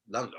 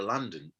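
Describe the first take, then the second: First: A quick try at a proper London accent; hint of a Cockney London. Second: Said in the usual way. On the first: Shown as a demonstration. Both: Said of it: "I'm trying to do the accent".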